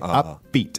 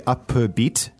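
First: The p and b merge into one sound. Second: The p and b are pronounced separately. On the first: The speaker calls it right. "The P and the B become like one sound" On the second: The speaker calls it wrong. "we don't say upbeat"

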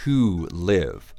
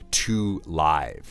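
First: Live is said like the verb meaning to exist. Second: Live is said like the word in live show. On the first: The speaker calls it right. "in our question today, it's to live" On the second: The speaker calls it wrong. "very rarely are you going to hear to live"

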